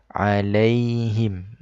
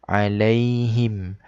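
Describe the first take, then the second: Both takes have the same delivery.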